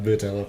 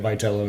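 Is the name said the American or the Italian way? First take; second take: Italian; American. First: The name is said with an Italian pronunciation. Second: The name is said with an American twang. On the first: This is how someone from Italy would say it. "not Vitello" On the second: This is how the man says his own name. "his twang that's making it Vitello"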